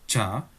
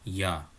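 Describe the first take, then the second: First: The word starts with a j sound. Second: The word starts with a y sound. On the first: The speaker calls it wrong. "tidak dibaca ja" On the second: The speaker calls it right. "tetapi ya"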